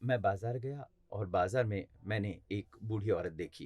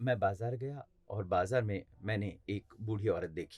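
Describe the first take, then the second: First: It is read in a flat, neutral tone. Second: The same.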